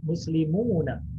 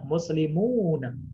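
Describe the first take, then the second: First: The vowel is held long for two beats. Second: The same.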